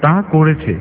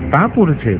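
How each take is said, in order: First: The lip sound is replaced by a tongue sound. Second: The lip sound is pronounced normally with the lips. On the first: "তাহলে সেটা বলতে হবে এইভাবে" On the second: "কথোপকথন যদি হয় এরকম"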